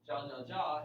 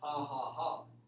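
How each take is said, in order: First: Each syllable starts with an English 'j' sound. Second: Each syllable starts with an 'h' sound. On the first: "ja ja ja in English is this" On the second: "you pronounce the J like a ha"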